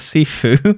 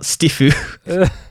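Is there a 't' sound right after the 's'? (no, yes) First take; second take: no; yes. First: It starts with a plain s and no t. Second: It starts with s followed by a t. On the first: The speaker calls it right. "the Sifu" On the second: The speaker calls it wrong. "not Stifu"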